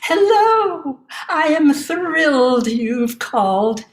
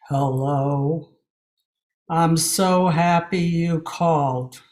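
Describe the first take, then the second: First: It sounds bright and cheerful. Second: It sounds gloomy and downcast.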